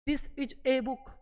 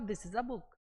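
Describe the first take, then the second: First: Each word is said separately, with full vowels. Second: The words run together, linked into one flow. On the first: "अलग अलग पढ़ते हैं" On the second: "जबकि वो क्या बोलता था?"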